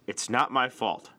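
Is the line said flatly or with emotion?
flatly. It is said flatly, without emotion.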